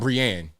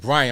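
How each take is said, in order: First: The name is said with the accented ending. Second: The name is said the usual English way. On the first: This is an altered form of the name. The speaker calls it wrong. "I'm gonna just put an accent mark on on top of that. Now I'm Brienne" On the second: This is the speaker's real name. The speaker calls it right. "my name is Brian"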